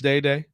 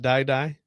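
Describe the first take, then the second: First: The vowel sounds like the word 'day'. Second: The vowel sounds like the word 'die'. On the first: The speaker calls it right. "I think it's Day Day" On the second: The speaker calls it wrong. "not Die Die"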